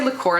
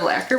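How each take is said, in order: First: "liqueur" said with stress on the second syllable, li-KOR; habitual mispronunciation. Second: "lacquer" said with stress on the first syllable, LACK-er; the intended word "lacquer", demonstrated; correct pronunciation. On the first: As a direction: say "liqueur" as the mistaken word for lacquer. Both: Shown as a demonstration. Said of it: "I always say liqueur instead of lacquer".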